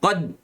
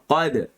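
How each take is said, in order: First: The final d is held silent without release. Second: The final d is released with a slight bounce. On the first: The speaker calls it wrong. "Jangan sebut qad. Ha, jangan matikan dia" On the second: The speaker calls it right. "kita sebut qa, qad"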